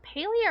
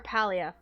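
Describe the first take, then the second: First: First vowel of Palia as in "pay"; Palia as PAY-lee-uh. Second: First vowel of Palia as in "pal". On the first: Streamer unsure of the game's name, Palia as PAY-lee-uh. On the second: Streamer offering the other name, Palia as PAL-ee-uh. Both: Shown as a demonstration. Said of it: "is it Palia or Palia?".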